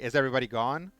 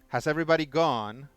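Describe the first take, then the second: First: The pitch stays lower and rises late. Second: The pitch rises early and stays high. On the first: "Whereas like an American would say" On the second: "with a British accent you go up earlier and you keep it up"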